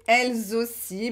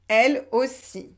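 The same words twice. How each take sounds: First: A z sound links elles to aussi. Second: Elles joins aussi with no z sound. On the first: It sounds more formal and sophisticated. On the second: It is the everyday spoken form.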